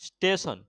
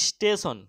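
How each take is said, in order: Both takes have the same delivery.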